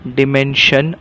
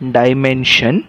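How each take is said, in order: First: The first syllable has a short 'dih' vowel. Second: The first syllable has a long 'die' vowel. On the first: "बरेचसे लोक ह्याला डिमेन्शन असं सुद्धा म्हणतात" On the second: "ह्या शब्दाचा उच्चार झाला डायमेन्शन"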